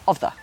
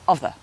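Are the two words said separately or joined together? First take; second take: joined; joined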